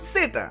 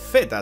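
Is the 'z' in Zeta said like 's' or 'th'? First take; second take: s; th. First: The first sound is an 's' sound. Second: The first sound is a 'th' sound. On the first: "en español" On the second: "si eres de España"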